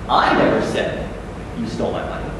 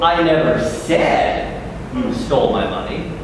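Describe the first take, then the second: First: The word "I" carries the strongest stress. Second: The word "said" carries the strongest stress. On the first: Someone else said it. "But Kathy did" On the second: It was written rather than spoken. "but I wrote in an email to Monsignor"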